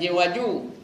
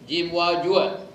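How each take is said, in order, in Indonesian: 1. Kata terakhir diakhiri tanpa bunyi 'a'. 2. Kata terakhir diakhiri dengan bunyi 'a'.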